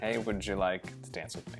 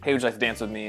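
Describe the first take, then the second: First: It is spoken slowly and calmly. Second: It is spoken very fast and unclearly. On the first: The asker seems confident. The speaker calls it right. "it's important to slow everything down" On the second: The asker seems nervous. The speaker calls it wrong. "say it really, really fast and be unclear"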